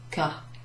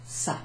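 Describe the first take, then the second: First: The word begins with a hard K sound. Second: The word begins with a soft S sound. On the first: The speaker calls it wrong. "Without that cedilla, this would be pronounced ka, and that wouldn't make sense" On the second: The speaker calls it right. "We need it to sound like ça"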